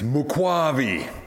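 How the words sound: The name is said with an African pronunciation. The speaker calls it right. "Just getting the African pronunciation right"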